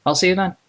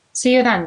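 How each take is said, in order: First: A hint of a male character signing off; lightly voiced man. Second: Higher-pitched female character signing off; woman's character voice. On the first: Man takes leave of a colleague at the door, lightly voiced. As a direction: say goodbye as a man, voice near your own. Zadok's goodbye, voiced by narrator. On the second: Acted. Woman answers a colleague's goodbye at the door, in a higher character voice.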